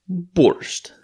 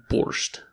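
First: Borscht in a mock Russian accent, pitched higher. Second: Said in the usual way. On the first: Shown as a demonstration. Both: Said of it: "That's my Russian accent".

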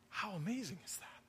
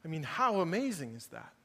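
First: Much softer, almost under the breath; quiet awe. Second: Said in the usual way. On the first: Real, not acted. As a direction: drop right down, hushed in wonder.

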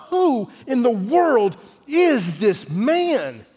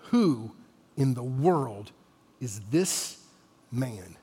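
First: High, very slow, drawn-out question; emphatic wonder. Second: Low, soft question with long pauses; hushed awe. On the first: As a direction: stretch every word out in big astonishment. Preacher poses the central question. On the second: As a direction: ask it quietly, phrase by phrase, in awe. Question repeated in the hushed calm. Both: Acted.

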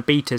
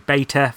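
First: "beta" said BEE-tuh; British pronunciation. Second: "beta" said BAY-tuh; American pronunciation. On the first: Host telling listeners about the news blast, "beta" as BEE-tuh. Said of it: "sorry, beta for those on the other side". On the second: Host correcting himself for transatlantic listeners, "beta" as BAY-tuh. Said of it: "for those on the other side of the Atlantic". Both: Shown as a demonstration.

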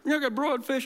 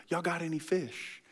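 First: Much higher, bright ask for fish; mock Jesus. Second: Much softer, offhand ask; casual Jesus. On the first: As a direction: pitch it up as a comic punchline. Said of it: "He's like". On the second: Acted. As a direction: toss it off quietly, deadpan. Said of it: "He goes".

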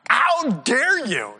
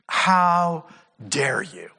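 First: Higher, slow, drawn-out "How dare you?"; the ten disciples' indignant "How dare you?", higher. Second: Slow, drawn-out indignant "How dare you?"; low and indignant, stretching out "How dare you?"; mock outrage, "How dare you?" drawn out slowly. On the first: Retold or imitated. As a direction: lift and stretch "How dare you?" in mock outrage. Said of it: "they are indignant". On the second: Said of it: "he is indignant".

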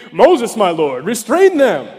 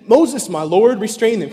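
First: Put-on louder, keen young man stepping up; Moses, my lord, restrain them, said loud and eager; eager young Joshua. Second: Said in the usual way. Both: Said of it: "Can you picture this young guy".

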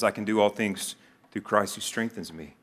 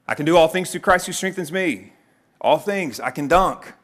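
First: Said in the usual way. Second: Higher, louder overconfident declaration; cocky, raised-voice misquoting; mock triumphant boast. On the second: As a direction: proclaim the verse like a hyped-up athlete. Overconfident misreading of verse, acted.

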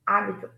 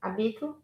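First: Hábito stressed on open "há"; stress on first syllable. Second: Habito stressed on "bi", rising; stress on second syllable. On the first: Teacher repeating the difference, "hábito" stressed on HÁ. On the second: Teacher repeating the difference, "Habito" stressed on BI. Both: Shown as a demonstration. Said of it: "So you see the difference?".

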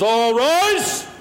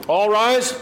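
First: Bailiff call. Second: Formal bailiff's call, rising end. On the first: Retold or imitated. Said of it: "the bailiff comes out and he says". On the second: Shown as a demonstration. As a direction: announce it like a court bailiff. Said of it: "I took these words from".

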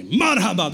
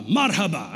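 First: MARHABA called out loud; loud, keen repeat of MARHABA; gusto. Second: Said in the usual way. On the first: Retold or imitated. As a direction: belt out MARHABA like an eager beginner.

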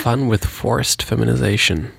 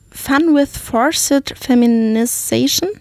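First: "Fun with forced feminization" in smooth English; fluent English. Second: Slow German-accented "Fun with forced feminization"; slow careful English. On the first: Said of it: "Jetzt sag mal". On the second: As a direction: read "Fun with forced feminization" haltingly, word by word. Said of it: "Mein Englisch". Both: Shown as a demonstration.

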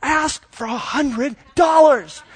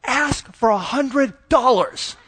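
First: Put-on much higher, slow kid voice with a giggle; little girl again. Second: High, slow, giggly kid voice imitated; mock a four-year-old hissing a tip; little girl's loud whisper. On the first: Dad imitating his four-year-old pushing her big sister, high and giggly. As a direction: plead it like a tiny insistent child. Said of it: "So she's like, back at, a second time". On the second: Dad imitating his four-year-old coaxing her sister, high and slow. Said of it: "trying to whisper so I don't hear".

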